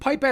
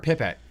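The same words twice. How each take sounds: First: The first vowel is a long 'eye' sound. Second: The first vowel is a short 'ih' sound. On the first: "P pipe like capital or like a long I" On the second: "pip, uh, short I"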